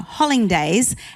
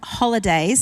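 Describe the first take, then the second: First: The word is pronounced as a playful distortion. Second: The word is pronounced in the standard way. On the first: "we will wake up in the morning on that day and say" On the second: "I'm trying to say it properly"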